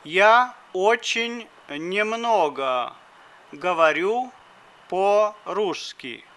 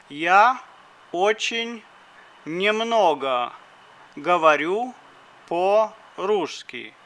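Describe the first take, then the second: No difference in how they are said.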